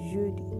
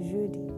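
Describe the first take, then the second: No difference in how they are said.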